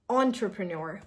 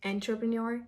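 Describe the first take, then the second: First: Entrepreneur starting "ON-truh"; Entrepreneur as "on-truh-pre-nor"; correct first sound. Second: Entrepreneur starting "EN-truh"; Entrepreneur as "en-truh-pre-nor"; wrong first sound. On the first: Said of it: "No, entre". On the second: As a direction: say Entrepreneur with an E as in enter. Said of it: "the first sound is not E". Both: Shown as a demonstration.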